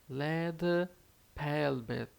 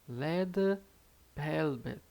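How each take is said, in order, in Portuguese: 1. A primeira palavra começa com som de L. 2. A primeira palavra começa com som de L.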